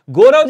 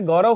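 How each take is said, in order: First: गौरव with plain o, "go-rav"; wrong vowel. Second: गौरव with open au, "gau-rav"; correct vowel. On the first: Teacher showing students the error, गौरव as "go-rav". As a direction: say गौरव as "gorav", closed o. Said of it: "जैसा कोई शब्द नहीं होता". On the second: Teacher correcting students, गौरव with open "gau". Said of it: "होता है". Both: Shown as a demonstration.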